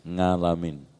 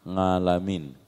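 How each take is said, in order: No difference in how they are said.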